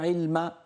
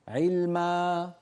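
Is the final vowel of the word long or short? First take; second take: short; long. First: The final vowel is clipped short. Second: The final vowel is held for two beats. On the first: The speaker calls it wrong. "مو علما فتحة هكذا" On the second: The speaker calls it right. "ما حركتين"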